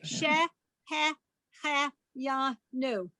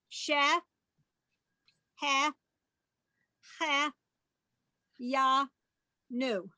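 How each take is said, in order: First: The word is said faster, syllables run together. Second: The word is said slowly, syllable by syllable. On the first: "Now a little faster" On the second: "not too, too fast"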